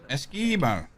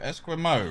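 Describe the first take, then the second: First: The middle is said with a plain 'k' sound. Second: The middle is said with a 'kw' sound. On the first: The speaker calls it right. "Without the U sound, just E, like Eskimo" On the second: The speaker calls it wrong. "Am I saying that right?"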